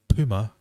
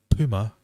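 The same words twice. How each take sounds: First: It is said in an American accent. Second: It is said in an American accent.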